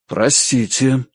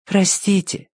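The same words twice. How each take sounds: First: Measured, dignified man; restrained formal apology. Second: High, gentle apology; polite, high-pitched little voice. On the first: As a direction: apologise while keeping your dignity. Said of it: "с достоинством сказал Ричард". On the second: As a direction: address a small creature with great courtesy. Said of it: "тихо и очень вежливо обратилась к крысе". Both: A narrator's reading.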